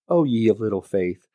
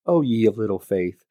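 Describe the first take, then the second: First: It is said in a gentle tone. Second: The same.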